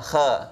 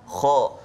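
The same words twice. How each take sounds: First: The kh sound is thin and light. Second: The kh sound is thick and heavy. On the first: The speaker calls it wrong. "baca dengan nipis, itu salah" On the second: The speaker calls it right. "Dia baca dengan tebal"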